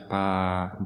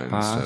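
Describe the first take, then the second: First: The vowel is lengthened. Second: The vowel is short. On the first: The speaker calls it right. "fica um pouco mais, mais longa" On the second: The speaker calls it wrong. "em vez de"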